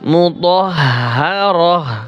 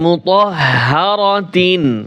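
First: The word ends in a soft h sound. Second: The word ends in a t sound plus -in. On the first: The reading stops on this word. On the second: The reading continues without stopping on the word.

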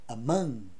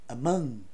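First: The first vowel is a weak schwa. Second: The same.

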